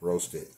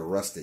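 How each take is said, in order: First: The first vowel sounds like the one in roast. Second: The first vowel sounds like the one in rust. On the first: The speaker calls it right. "Roasted. Sorry. My English is crap" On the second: The speaker calls it wrong. "I said rusted, y'all"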